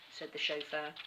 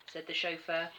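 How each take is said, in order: Both takes have the same delivery.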